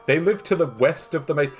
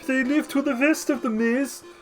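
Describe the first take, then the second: First: It is said in a plain English accent. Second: It is said in a German accent.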